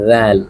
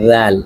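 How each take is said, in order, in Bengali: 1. শব্দটি জিভ দাঁতের ফাঁকে রেখে বলা 'th' শব্দ দিয়ে শুরু হয়। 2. শব্দটি জিভ দাঁতের ফাঁকে রেখে বলা 'th' শব্দ দিয়ে শুরু হয়।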